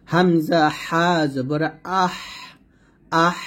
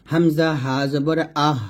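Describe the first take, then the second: First: Slow recitation, 'আহ' ending in a thin stream of breath; thin airy ha. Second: Said in the usual way. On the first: Shown as a demonstration. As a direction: let thin air out on 'আহ'. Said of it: "চিকন একটা বাতাস বের করে". ('আহ' চিকন বাতাস বের করে ধীরে উচ্চারণ) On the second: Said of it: "আমরা স্বাভাবিকভাবে বলবো".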